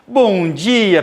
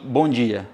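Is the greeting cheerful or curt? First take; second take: cheerful; curt. First: The greeting sounds loud, cheerful and lively. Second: The greeting sounds flat, quiet and curt. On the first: The person is outgoing and sociable. "Como é que o comunicador entra na sala?" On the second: The person is reserved and focused on work. "No máximo eu vou falar assim"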